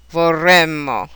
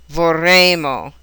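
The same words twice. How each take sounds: First: "vorremmo" with short open EH and held double M; shortened E. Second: "vorremmo" slowly, with a long AY and single M; elongated A sound. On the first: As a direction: say "vorremmo" as vor-REHM-mo. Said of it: "shortened E sound". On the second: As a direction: say "vorremmo" as vor-RAAY-mo. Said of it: "elongated A sound". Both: Shown as a demonstration.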